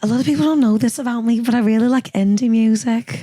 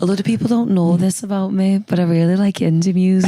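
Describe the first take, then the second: First: Geordie impression slipping into Scouse; wobbly Scouse-sounding Geordie accent. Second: Second go at a Geordie impression. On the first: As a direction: attempt a higher-pitched Geordie accent that comes out Scouse. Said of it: "my favorite thing that [name]'s ever said". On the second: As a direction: practise the Geordie accent carefully. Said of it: "I'm trying to do it. I need to practice".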